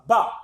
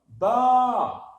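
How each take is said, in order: First: The vowel is short. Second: The vowel is long. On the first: "B avec la fatha, ça sonne comme ça" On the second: "si je veux la prolonger"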